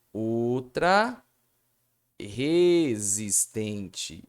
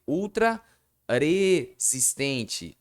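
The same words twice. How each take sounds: First: Ultra resistente with a strong, throaty R at the start of resistente; slow resistente with the R kept hard as in rato; teacher giving the right pronunciation; correct sound. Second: Resistente drawn out, the R tapped and weak; teacher showing the sound change that must not happen; wrong sound. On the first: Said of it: "é assim, ó". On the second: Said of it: "não pode haver mudança no som". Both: Shown as a demonstration.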